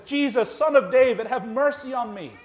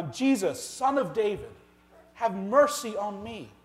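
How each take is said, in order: First: Imitated desperate cry, high and loud; crying out louder. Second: Mild imitated cry, pitched higher. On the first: Preacher voicing beggar who won't be silenced, louder cry. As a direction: raise it into an insistent plea. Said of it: "Even louder". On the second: Preacher voicing blind beggar calling to Jesus, mild cry. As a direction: call out for mercy, slightly raised. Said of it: "begins to cry out and say".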